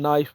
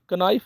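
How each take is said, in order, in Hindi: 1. शुरू का k silent है। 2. शुरू का k बोला जाता है। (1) "इसको नाइफ बोलना है" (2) "कनाइफ नहीं बोलना"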